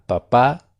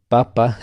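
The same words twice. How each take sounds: First: Papá rising onto the final á; stress on last syllable. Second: Papa, first syllable punched louder; stress on first syllable. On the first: Teacher reminding student of father, final stress on papá. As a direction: land firmly on the second syllable of papá. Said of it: "el acento, si está en la última sílaba". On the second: Teacher recalling the tuber word, first-syllable stress on papa. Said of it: "Si está en la primera sílaba el acento". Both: Shown as a demonstration.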